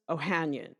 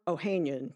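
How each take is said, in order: First: "Ohanian" with HAN as in "hand"; first pronunciation variant. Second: "Ohanian" with HAN like "hain"; alternative pronunciation. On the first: Host offering Reddit co-founder's name, first pronunciation. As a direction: say "Ohanian" as oh-HAN-yun, short a. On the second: Host offering the other guide's version, alternative pronunciation. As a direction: say "Ohanian" as oh-HAYN-yun, long a. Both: Shown as a demonstration. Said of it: "depending on which pronunciation guide you follow".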